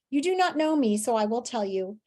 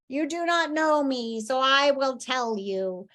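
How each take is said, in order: First: It is said in her normal voice. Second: It is said in a put-on merman voice.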